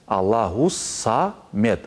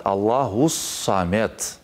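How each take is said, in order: Both takes have the same delivery.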